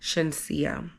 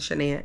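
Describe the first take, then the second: First: The name is said with an s sound inside. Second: The name is said without the middle s sound. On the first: The speaker calls it right. "it was actually Shensia" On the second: The speaker calls it wrong. "I pronounced it wrong. It wasn't Shania"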